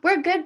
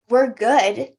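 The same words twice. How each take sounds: First: It is said in a stiff, rigid way. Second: It is said in a relaxed, easy way. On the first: The calm is forced rather than felt. The speaker calls it wrong. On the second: The person feels genuinely calm and steady. The speaker calls it right.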